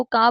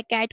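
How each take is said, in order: First: का with the final T of cat dropped; final consonant deletion. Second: Said in the usual way. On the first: Retold or imitated. Lecturer shows a child deleting endings, का without final T. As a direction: say cat as का, open vowel ending. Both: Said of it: "कैट को का बोल रहा है".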